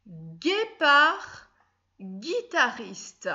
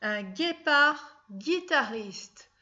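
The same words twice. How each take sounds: First: Guépard then guitariste very slowly, hard g clear; slow dictation. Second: Un guépard guitariste very slowly, each hard g clear; slow dictation. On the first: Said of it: "revenons-en à notre dictée". (dicter guépard guitariste lentement, le g bien dur) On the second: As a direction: read it out slowly to the class, syllable by syllable. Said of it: "G U I". (dicter lentement, en appuyant le son g) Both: Shown as a demonstration.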